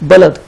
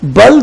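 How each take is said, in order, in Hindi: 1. l और d के बीच एक छोटा स्वर है। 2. l और d के बीच कोई स्वर नहीं है, दोनों जुड़े हैं। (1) "असल में ये लफ्ज़ है बलद" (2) "बल्द नहीं"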